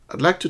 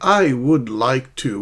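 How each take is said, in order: First: The first two words blend into one short sound. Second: Each word is said separately and in full. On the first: The speaker calls it right. "sounds more like I'd" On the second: The speaker calls it wrong. "which is going to sound very unnatural, not very smooth and natural"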